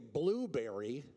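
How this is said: It is said the American way. "Americans say blueberry"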